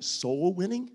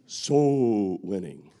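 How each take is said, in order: First: Rising, baffled question; puzzled question. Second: "Soul winning" much lower, very slow and eerie; spooky Halloween voice. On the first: Retold or imitated. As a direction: ask it like the phrase makes no sense. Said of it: "sounds like something that you practice on Halloween". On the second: Pretend. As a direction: drag it out like a haunted-house voice. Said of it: "something that you practice on Halloween".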